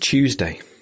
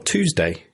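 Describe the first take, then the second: First: It is said with a British pronunciation. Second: It is said with an American pronunciation.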